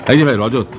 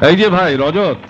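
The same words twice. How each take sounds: First: Said in the usual way. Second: Raised, higher-pitched hail; calling out. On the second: Acted. Visitor hailing the office clerk Rajat, calling out. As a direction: call for a colleague's attention.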